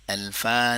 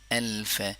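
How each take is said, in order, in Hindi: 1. यह शब्द लंबे a स्वर पर खत्म होता है। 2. यह शब्द व्यंजन f पर खत्म होता है। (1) "अल्फा नहीं करेंगे, अल्फा को लंबा नहीं करेंगे"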